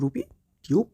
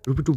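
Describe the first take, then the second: First: The second word is said with a 'yoo' vowel. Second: The second word is said with a plain 'oo' vowel. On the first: The speaker calls it wrong. "টিউব not টিউব" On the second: The speaker calls it right. "উচ্চারণটা হবে রুপি টুব"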